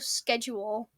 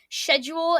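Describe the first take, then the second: First: It is said the American way. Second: It is said the British way. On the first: "instead of" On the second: "people on show shows would say schedule"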